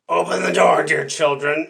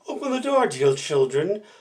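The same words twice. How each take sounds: First: The wolf's voice sounds rough. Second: The wolf's voice sounds soft.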